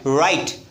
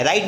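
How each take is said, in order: First: "राइट" with the tongue curled back on the r; folded-tongue r. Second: "राइट" with an ordinary unfolded-tongue r; wrong pronunciation demo. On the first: Teacher models write for students, "राइट" with folded-tongue r. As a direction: model "राइट" correctly, folding the tongue for the first sound. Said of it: "अपनी टंग को fold करिए ऐसे". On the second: Teacher shows students the reading to avoid, "राइट" with unfolded tongue. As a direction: say "राइट" the incorrect way, tongue not curled back. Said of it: "राइट नहीं पढ़ना है". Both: Shown as a demonstration.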